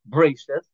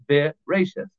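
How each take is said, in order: First: No vowel is heard between b and r. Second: A short vowel is heard between b and r. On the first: The speaker calls it wrong. "we don't say Bereshith" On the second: The speaker calls it right. "we say Bereshith, where we pronounce the Shva"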